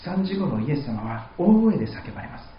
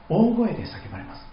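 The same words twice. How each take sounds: First: Said in the usual way. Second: 大声 lifted high and leaned on; stress on 大声. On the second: Shown as a demonstration. Preacher repeating for emphasis, 大声 raised high.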